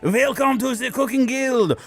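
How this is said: It is said in a put-on French accent.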